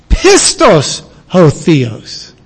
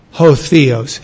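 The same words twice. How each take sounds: First: "Pistos" drawn out and weighted, slow; stress on Pistos. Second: Said in the usual way. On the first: Shown as a demonstration. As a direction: lean hard on "Pistos", then let "ho Theos" fall. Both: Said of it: "See that emphasis?".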